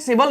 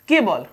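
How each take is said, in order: First: The word begins with an s sound. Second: The word begins with a k sound. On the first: The speaker calls it wrong. "इसको हमने सेबल नहीं पढ़ा है" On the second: The speaker calls it right. "हमने इसको केवल ही पढ़ा है"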